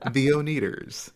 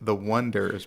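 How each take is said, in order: First: The name sounds like one followed by eaters. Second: The name sounds like the word wonders. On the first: The speaker calls it wrong. "everyone kept pronouncing it the Oneaters" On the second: The speaker calls it right. "their original band name was The Wonders"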